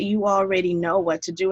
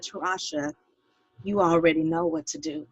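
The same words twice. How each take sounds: First: Said in the usual way. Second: Hushed, gentle voice of God; quietly imitating a soft divine reassurance; soft, reassuring voice. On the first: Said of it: "He said". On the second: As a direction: say it softly to reassure her, retelling what was heard. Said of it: "he said in a soft, soft voice, reassuring voice".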